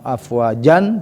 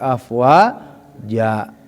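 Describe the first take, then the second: First: The word ends with an n sound. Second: The word ends with a plain vowel. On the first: The speaker calls it wrong. "Bukan afwajan" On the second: The speaker calls it right. "tapi afwaja, jan dibaca ja"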